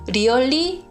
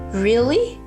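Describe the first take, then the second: First: It is said with a Korean-style pronunciation. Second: It is said with a native English pronunciation. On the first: The speaker calls it wrong. "really 이러지 않고" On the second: The speaker calls it right. "really really really 이렇게 연습을 했고요"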